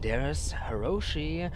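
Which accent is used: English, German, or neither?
English. It is said with an English accent. "that's too English"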